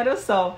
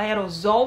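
First: The middle consonant sounds like a hissing s. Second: The middle consonant sounds like a buzzing z. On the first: The speaker calls it right. "É aerossol" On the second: The speaker calls it wrong. "a gente fala aerosol, mas é errado"

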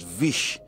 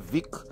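First: The name ends with an sh sound. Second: The name ends with a k sound. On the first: This is the speaker's own pronunciation. "I pronounce it Vish" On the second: Some other people pronounce it this way. "Some people might say Vic"

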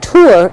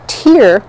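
First: The vowel is said as an 'oo' sound. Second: The vowel is not said as an 'oo' sound. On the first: The speaker calls it right. "it's U is how you pronounce the Y" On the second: The speaker calls it wrong. "I always forget to pronounce the Y"

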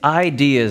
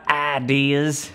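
First: The word is said with a standard accent. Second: The word is said with a country accent. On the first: The speaker calls it right. "it's ideas" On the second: The speaker calls it wrong. "not ideas. ... I said it apparently really country"

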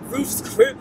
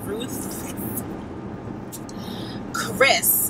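First: The name is said loosely, without clear enunciation. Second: The name is said with careful, clear enunciation. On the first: The speaker calls it wrong. "I always want to say Roof's Chris. That's so ghetto" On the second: The speaker calls it right. "excuse me. Let's enunciate"

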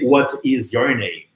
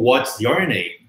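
First: Each word is said separately and in full. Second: What and is merge, other words stay separate. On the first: "Não é só aprender what is your name" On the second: "ou what's your name"

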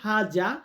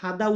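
First: The middle consonant is a z sound. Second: The middle consonant is a d sound. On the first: This is the standard form. "এটা সঠিক হচ্ছে হাজা" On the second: This is the everyday spoken form. "আমরা আরব কান্ট্রিতে হাদা উচ্চারণ করে থাকি"

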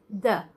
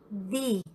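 First: The vowel is short and neutral, like 'thuh'. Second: The vowel is long and high, like 'thee'. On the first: The next word starts with a consonant sound. "se a palavra que vier após esse artigo tiver som de consoante, você fala the" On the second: The next word starts with a vowel sound. "se a palavra que vier após tiver som de vogal, você fala the"

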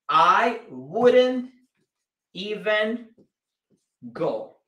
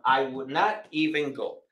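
First: Would and not are joined into one contracted word. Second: Would and not are said as two full words. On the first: "al unirse o al formar o hacer la contracción, se dice wouldn't" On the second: "esta sería la forma gramatical"

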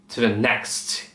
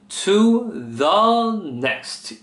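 First: It is said fast and clipped. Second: It is said slowly, each word fully.

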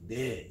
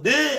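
First: It is said at a calm conversational pitch. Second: It is said at a raised, energetic pitch. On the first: The speaker calls it right. "이 도란 말이야" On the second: The speaker calls it wrong. "하지 않잖아"

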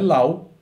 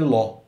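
First: The vowel glides like 'ow' in 'cow'. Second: The vowel is a plain 'aw' like 'law'. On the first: The speaker calls it wrong. "não é lau" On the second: The speaker calls it right. "é ló"

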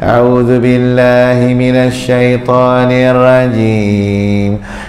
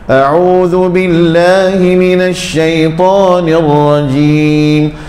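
First: The pitch stays level throughout the phrase. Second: The pitch lifts on the word billahi. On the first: The speaker calls it wrong. "Jangan ... Nada yang sama je" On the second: The speaker calls it right. "nama Allah ni, kita angkat sikit tiun dia"

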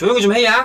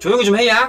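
First: It is said in a Jeolla dialect manner. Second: The same.

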